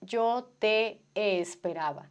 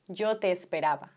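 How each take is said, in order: First: The two e vowels are said separately. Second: The two e vowels merge into one. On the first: The speaker calls it wrong. "je dis pas Yo te esperaba" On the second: The speaker calls it right. "on prononce comme s'il y en avait une seule"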